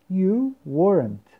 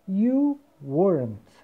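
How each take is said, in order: No difference in how they are said.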